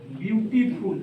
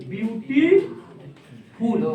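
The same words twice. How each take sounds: First: Said in the usual way. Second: beautiful very slow, broken as beauty, pause, फुल; syllable-split demonstration. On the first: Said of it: "अब इसी में beautiful आ गया". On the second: Shown as a demonstration. Teacher showing two syllables, beautiful slowly split in two. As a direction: stretch beauty out, hold, then drop on फुल. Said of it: "दो बार है".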